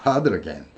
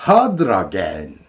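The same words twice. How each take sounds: First: "hurting again" quick, t flapped like hadra-gen; quick flapped link. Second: "hurting again" slow, t flapped like hadr-again; flapped and linked. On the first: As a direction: run "hurting again" together fast. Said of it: "이렇게 되겠죠". (빠르게 플랩으로) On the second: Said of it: "N을 L로 하면". (느리게 플랩으로 이어서) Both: Shown as a demonstration.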